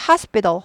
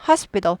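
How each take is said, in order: First: The t sound is weakened. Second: The same.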